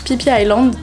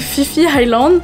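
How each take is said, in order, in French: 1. Le nom commence par un son p. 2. Le nom commence par un son f. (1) "mais non, ça se prononce Phi Phi Island" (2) "je pensais que ça se prononçait Fifi Island"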